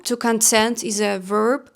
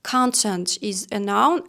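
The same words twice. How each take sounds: First: Content said kun-TENT, first syllable reduced, second stressed; stress on TENT, verb. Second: Content said KAHN-tent, weight on the first syllable; stress on CON, noun. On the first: To viewers, explaining the verb content, second syllable stressed. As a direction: content with a weak kun and the weight landing on TENT. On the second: To viewers, explaining the noun content, first syllable stressed. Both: Shown as a demonstration. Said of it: "put the stress correctly here".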